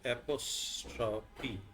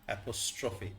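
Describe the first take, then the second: First: The middle consonant is a 'p' sound. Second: The middle consonant is an 'f' sound. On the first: The speaker calls it wrong. "সে বলছে অ্যাপোস্ট্রফি, এটা পি হবে না" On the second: The speaker calls it right. "এটা পিএইচ হবে, এফ এর sound"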